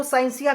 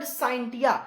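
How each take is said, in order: First: "साइंसिया" with S in place of T; pronounced with S. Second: "साइंटिया" with a clear T before the ending; pronounced with T. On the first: Teacher giving the alternative some people use, "साइंसिया" with S. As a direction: say "साइंसिया" with an S sound, sain-SI-ya. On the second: Teacher giving the Latin word, "साइंटिया" pronounced with T. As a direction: say "साइंटिया" with a T sound, sain-TI-ya. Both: Shown as a demonstration. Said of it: "कुछ लोग इसको साइंसिया भी बोलते हैं".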